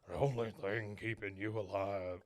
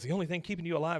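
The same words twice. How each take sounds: First: It is said in an imitated old man's voice. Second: It is said in an imitated younger man's voice. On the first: The speaker calls it wrong. "I did the wrong voice" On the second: The speaker calls it right. "it's Ethan Hawke"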